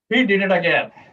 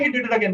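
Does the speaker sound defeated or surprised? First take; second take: defeated; surprised. First: It sounds breathy and defeated, falling low. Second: It sounds surprised. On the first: The speaker has given up. "There's this breath, and he, this voice, it went down" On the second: The speaker did not expect it. "That would be surprise"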